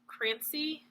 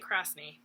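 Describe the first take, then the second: First: The S sound comes after the N sound. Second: The S sound comes before the N sound. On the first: Another person pronounces the name this way. "he says Crancy" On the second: This follows the spelling of the name. "you probably say the S before the N"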